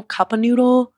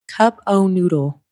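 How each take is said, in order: First: Said in the usual way. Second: Slow, drawn-out "Cup o' noodle" in a put-on voice; playful mock pronunciation. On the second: Shown as a demonstration. Host playfully savouring a food order name: slow, drawn-out "Cup o' noodle". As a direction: stretch out "Cup o' noodle" slowly, savouring it in a funny voice. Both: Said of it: "You like that?".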